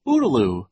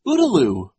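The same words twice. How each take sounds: First: Put-on baby shriek. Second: High, loud little shriek; short high-pitched squeal of a cry. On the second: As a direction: shriek it out high, falling at the end. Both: A narrator's reading. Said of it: "Sunny shrieked".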